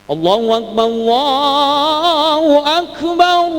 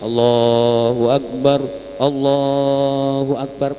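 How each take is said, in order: First: It is called out loudly. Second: It is said softly and gently.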